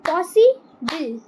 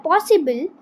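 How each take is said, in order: First: possible stretched slowly into beats; slow syllable demo. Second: Said in the usual way. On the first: Shown as a demonstration. Teacher to pupils, slowly clapping syllables. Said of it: "teacher repeats slowly". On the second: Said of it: "teacher reads word list".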